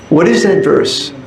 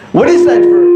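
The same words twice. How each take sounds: First: It is said more softly. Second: It is said loudly, almost shouted.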